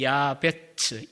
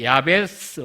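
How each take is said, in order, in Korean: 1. 첫 모음은 길고 ts로 끝납니다. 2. 첫 모음은 짧고 s로 끝납니다.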